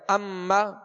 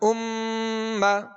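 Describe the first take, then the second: First: The doubled m is said without a long nasal hum. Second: The doubled m is held as a long nasal hum. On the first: The speaker calls it wrong. "اگر اس میں غنہ نہیں کریں گے دوہرا تو پڑھا جائے گا اما" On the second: The speaker calls it right. "غنہ کرنے کی وجہ سے اس میں زیادہ دیر لگی"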